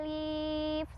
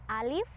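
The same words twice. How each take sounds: First: The vowel is drawn out long. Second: The vowel is kept short, one beat. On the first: The speaker calls it wrong. "Nggak pernah tuh baca alif, salah" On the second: The speaker calls it right. "satu ketukan atau pendek ya"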